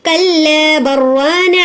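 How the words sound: 'Bal' merges straight into 'rana' as 'barrana'. "अब जो है बल नहीं बोलना, हमें बर कर को बोलना"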